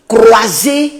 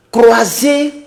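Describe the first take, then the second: No difference in how they are said.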